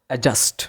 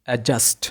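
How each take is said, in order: No difference in how they are said.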